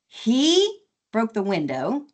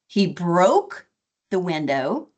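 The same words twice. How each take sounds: First: The stress falls on the word he. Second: The stress falls on the word broke. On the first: It was him, not someone else, who broke it. "as opposed to she or it" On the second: The window was broken, not just cracked. "as opposed to it's broken or it's cracked"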